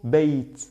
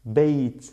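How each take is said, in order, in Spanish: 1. La palabra termina en un sonido t claro. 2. La palabra termina en un sonido t claro.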